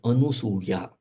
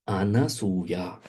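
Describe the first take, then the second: First: The second syllable is said as 'nu'. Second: The second syllable is said as 'na'. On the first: The speaker calls it wrong. "It is not Anusuya" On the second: The speaker calls it right. "the word is Anasuya"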